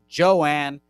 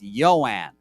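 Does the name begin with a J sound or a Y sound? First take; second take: J sound; Y sound. First: The name begins with a J sound. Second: The name begins with a Y sound. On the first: The speaker calls it wrong. "Not Joanne" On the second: The speaker calls it right. "It's Yoan. ... A little yo"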